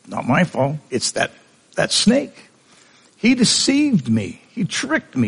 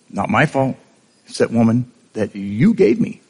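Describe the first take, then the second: First: Much higher, pleading excuse; whiny Eve. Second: Said in the usual way. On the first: Retold or imitated. Eve pleading to God that the snake tricked her, high and whiny. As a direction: squeak out the blame like a caught child.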